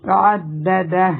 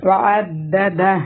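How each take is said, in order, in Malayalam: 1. ഈ വാക്ക് ശബ്ദമില്ലാത്ത, മുറിഞ്ഞ ഹ-യിലാണ് അവസാനിക്കുന്നത്. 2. ഈ വാക്ക് ശബ്ദമില്ലാത്ത, മുറിഞ്ഞ ഹ-യിലാണ് അവസാനിക്കുന്നത്.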